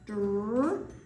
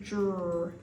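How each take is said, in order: First: The d sound is kept plain and separate. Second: The d sound is changed slightly before r. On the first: The speaker calls it wrong. "instead of saying dr" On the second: The speaker calls it right. "this D sound changes just a little bit when it's in our D R blend"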